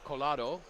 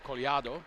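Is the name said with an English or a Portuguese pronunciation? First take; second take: English; Portuguese. First: It is said with an English pronunciation. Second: It is said with a Portuguese pronunciation. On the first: "And I would say Colado" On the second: "it's more Collado"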